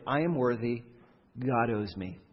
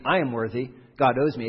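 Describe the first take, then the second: First: Quietly self-assured entitlement; a low, smug muttered claim on God; entitled claim. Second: Louder, pushier entitled demand; a firmer, louder entitled claim. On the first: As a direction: say it softly, as if it's obvious you're owed. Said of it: "the merit approach sounds like this". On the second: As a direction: insist God owes you, leaning on GOD. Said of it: "It doesn't have to be". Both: Shown as a demonstration.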